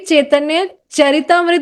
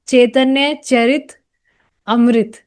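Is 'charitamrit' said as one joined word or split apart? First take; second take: joined; split. First: The title is said as one joined word. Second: The title is split into separate words. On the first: The speaker calls it right. "कभी भी चैतन्य चरितामृत बोल नहीं पाती थी मैं" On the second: The speaker calls it wrong. "मैं बोलती थी चैतन्य चरित अमृत"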